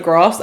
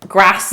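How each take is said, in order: First: "grass" with a long southern A. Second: "grass" with a short northern A. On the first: Contrasting southern speech with northern, long A in "grass". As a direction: say "grass" with a drawn "ah" vowel. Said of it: "instead of grass". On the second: Showing how northerners say it, short A in "grass". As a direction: say "grass" with the A of "cat". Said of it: "it says". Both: Shown as a demonstration.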